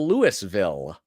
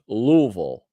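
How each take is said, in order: First: The name is said the Midwestern way. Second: The name is said the local way. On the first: This is an outsider's way of saying the place name. The speaker calls it wrong. "That drives him nuts" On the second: This is how the place name is properly said. The speaker calls it right. "It's pronounced Louisville"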